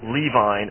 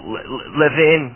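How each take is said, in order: First: The name is said in a Gentile-sounding form. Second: The name is said in its original form. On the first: The speaker calls it wrong. "they call him Levine... trying to make him sound as Gentile as possible" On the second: This is the man's real name. The speaker calls it right. "his name is, you know, Levin"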